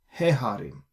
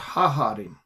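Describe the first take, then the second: First: The article is said with an 'e' vowel. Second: The article is said with an 'a' vowel. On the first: The speaker calls it right. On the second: The speaker calls it wrong. "It's not ha harim"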